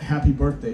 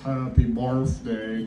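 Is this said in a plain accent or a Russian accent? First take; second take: plain; Russian. First: It is said in a plain, unaccented way. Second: It is said in a thick Russian accent. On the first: "it doesn't come out Happy Birthday" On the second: "with the thick Russian accent, it comes out Happy Birthday to you. So it sounds like Happy Barf Day"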